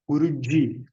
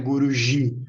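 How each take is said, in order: First: The j is a dj sound. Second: The j is a soft zh sound. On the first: The speaker calls it right. "como se tivesse um D e um J, como em Djavan" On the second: The speaker calls it wrong. "não é Guruji"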